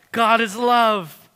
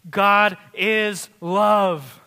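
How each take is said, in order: First: "God is love" again loud and slow, a bit quicker, GOD stressed; repeated proclamation. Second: "God is love" drawn out very slowly and loud, GOD hit hardest, falling at the end; slow proclamation. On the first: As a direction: restate "God is love" firmly, GOD on top. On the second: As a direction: stretch "God is love" word by word, leaning on GOD. Climactic scripture proclamation. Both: Acted.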